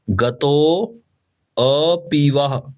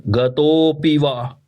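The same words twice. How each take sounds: First: गतो then अपि spoken apart, very slowly; split syllables. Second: गतोऽपि said as one slow flowing word; joined syllables. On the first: Teacher breaks गतोऽपि into parts. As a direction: pause between गतो and अपि. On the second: Teacher gives the joined form after splitting. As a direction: blend गतोऽपि together smoothly. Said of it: "ठीक है". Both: Shown as a demonstration.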